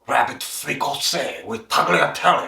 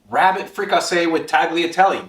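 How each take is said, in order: First: It is said in a put-on French accent. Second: It is said in the speaker's ordinary accent.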